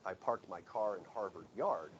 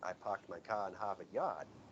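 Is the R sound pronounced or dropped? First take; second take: pronounced; dropped. First: The R sounds are pronounced clearly. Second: The R sounds are dropped, R-less.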